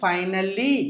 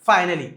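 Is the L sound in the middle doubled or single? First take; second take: doubled; single. First: The L sound is held long, doubled. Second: The L sound is short, said once. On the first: The speaker calls it wrong. "ఫైనల్లీ కాదు" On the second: The speaker calls it right. "రెండు రెండు వస్తే ఒకటే చెప్పాలండి"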